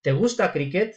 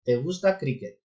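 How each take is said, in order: First: It has the rising tune of a question. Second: It has the flat tune of a statement.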